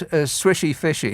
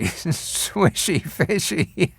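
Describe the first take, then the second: First: Said in the usual way. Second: Very slow, laughing repeat. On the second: Shown as a demonstration. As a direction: savour the name through laughter.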